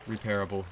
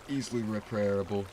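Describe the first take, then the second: First: Said in the usual way. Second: Words broken by a hiccup; hiccuping mid-word. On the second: Real, not acted. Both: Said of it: "I don't know why I'm hiccuping now".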